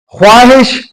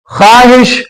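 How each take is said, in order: First: خواہش with the و sounded, khwaahish; خواہش said khwaahish, w heard after خ; the spelled-out way: خواہش as khwaahish; pronunciation as spelled. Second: خواہش said khaahish, silent و; the right way: خواہش as khaahish; خواہش with no w sound after خ; correct pronunciation. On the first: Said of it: "خے متحرک ہے". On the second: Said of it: "وہ نکل گیا ہے، وہ سائلنٹ ہے". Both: Shown as a demonstration.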